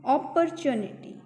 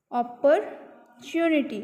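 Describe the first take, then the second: First: Said in the usual way. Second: "अपॉर्चुनिटी" slowly, split after op-per; teacher sounding out "अपॉर्चुनिटी" slowly; broken into parts. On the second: Shown as a demonstration. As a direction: pause inside "अपॉर्चुनिटी", then finish chu-ni-tee. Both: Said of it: "ओ की आएगी".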